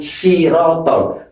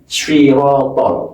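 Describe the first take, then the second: First: The first consonant is a plain, light s. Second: The first consonant is a heavy, emphatic s. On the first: The speaker calls it wrong. "Kalau sirotol berarti berubah huruf sin" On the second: The speaker calls it right. "bukan sirotol"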